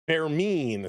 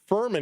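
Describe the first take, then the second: First: The name is said with foreign-accented sounds. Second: The name is said with English sounds. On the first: The speaker calls it right. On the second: The speaker calls it wrong.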